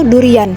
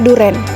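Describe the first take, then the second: First: The word ends with separate 'i' and 'an' syllables. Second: The word ends with a single 'en' syllable. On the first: The speaker calls it right. "Yang benarnya itu durian" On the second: The speaker calls it wrong. "menyebutnya duren, padahal itu salah"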